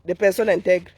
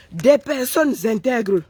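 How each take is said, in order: First: Said in the usual way. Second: "Des personnes intègres" slow, each word weighed; slow emphatic. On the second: Real, not acted. Répétition lente appuyée. ("Des personnes intègres" lent et appuyé)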